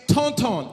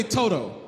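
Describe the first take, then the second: First: "tonton" said slowly with nasal Creole vowels; correct Creole word. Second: "Toto" with plain open O sounds, no nasal N; mispronounced Creole. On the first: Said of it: "I say Toto". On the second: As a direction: botch "tonton" as "Toto". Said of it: "he get aggravated when I say it". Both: Shown as a demonstration.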